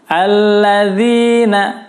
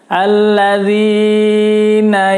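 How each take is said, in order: First: The long vowel is held for two counts. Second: The long vowel is stretched far too long. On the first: The speaker calls it right. "tapi jangan sampai panjang-panjang" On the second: The speaker calls it wrong. "jangan sampai membaca alladzina yang, enggak, tidak tepat"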